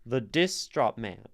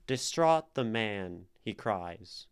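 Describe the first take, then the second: First: "The distraught man" with "dis" punched and split from "traught"; word broken up. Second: Slow "Distraught the man", landing on "traught" and "man"; iambic short-long. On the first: Teacher showing a line that doesn't flow, forced stress. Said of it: "distraught is being broken up". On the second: Teacher showing how the line fits if we say it so, iambic stress. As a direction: let "Distraught the man, he cries" flow weak-STRONG. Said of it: "it fits short long". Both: Shown as a demonstration.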